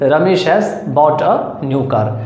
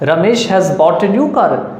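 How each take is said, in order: First: It is said in a plain, matter-of-fact tone. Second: It is said with a surprised, exclamatory tone. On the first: It is simply a statement of fact. "Simply अगर बोलेंगे" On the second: The news is unexpected. "आश्चर्य में ही तो बोलेंगे"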